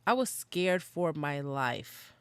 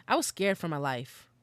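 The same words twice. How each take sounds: First: "I was scared for my life" stretched out slowly, each word leaned on; slow, deliberate emphasis on "scared for my life"; slow emphatic repeat. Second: Said in the usual way. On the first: Real, not acted. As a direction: drag out "scared for my life" for weight. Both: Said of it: "I was scared for my life, okay?".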